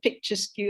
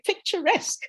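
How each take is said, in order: First: It ends with a 'skew' sound, like two words. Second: It ends with an 'esk' sound, as one word. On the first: The speaker calls it wrong. "that's a word, picture skew" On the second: The speaker calls it right. "oh my gosh, they say picturesque"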